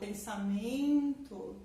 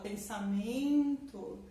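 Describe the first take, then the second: First: The stress falls on the third syllable, 'men'. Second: The stress falls on the third syllable, 'men'.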